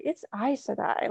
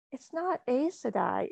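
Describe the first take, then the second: First: Aes Sedai said with "eyes" as the first word; corrected Aes Sedai. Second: Aes Sedai said with "ace" as the first word; mispronounced Aes Sedai. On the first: Daughter correcting mom, Aes Sedai as "eyes sedai". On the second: Daughter quoting mom's mistake, Aes Sedai as "ace sedai". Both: Retold or imitated. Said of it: "she was correcting my pronunciation".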